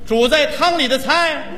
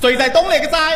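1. 这个短语说得很慢，而且很清楚。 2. 这个短语说得很快，而且连在一起。

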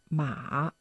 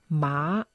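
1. Der Ton fällt tief und steigt dann wieder. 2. Der Ton steigt von mittel nach hoch. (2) "einen ansteigenden"

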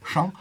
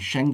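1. Das Wort wird weiter hinten im Mund gesagt. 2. Das Wort wird weiter vorne im Mund gesagt. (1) "aber Sheng ist so hinten so" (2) "Sheng wird das geschrieben"

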